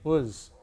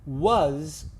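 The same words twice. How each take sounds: First: The word is quick and reduced. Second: The word is fully and clearly articulated. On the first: "We don't move our mouth very much" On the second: "you see how much I move my mouth?"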